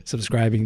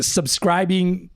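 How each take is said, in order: First: "Subscribing" said again cleanly, lower and quicker as a fix; corrected word. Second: "subscribing" dragged out very slowly, stumbling over it; fumbled word. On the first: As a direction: correct yourself and say "Subscribing" right. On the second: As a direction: grope through "subscribing" syllable by syllable. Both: Real, not acted. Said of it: "I can't speak English".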